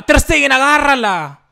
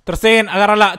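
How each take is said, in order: First: Higher, louder desperate plea; high desperate scream. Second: Loud urgent plea; loud pleading. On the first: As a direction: scream for the save. Repeated plea more desperate. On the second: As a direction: beg the keeper to save it. Pleading goalkeeper to save. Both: Real, not acted.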